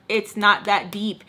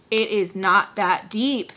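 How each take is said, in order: First: Said in the usual way. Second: Slow, each word of "It is not that deep" separated, stress on not; slow stressed repeat. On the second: Real, not acted. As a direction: spell out "It is not that deep" slowly, with weight on not.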